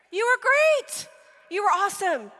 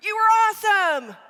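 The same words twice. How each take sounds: First: Higher, louder, gushing parent praise. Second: A big, loud, higher over-the-top "awesome"; shouted praise. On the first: Parent gushing at kid after the game, higher and louder. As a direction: pour on the praise like a proud parent. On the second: Parent over-cheering the worst kid, louder and higher. Parent overpraising a bad player. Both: Retold or imitated.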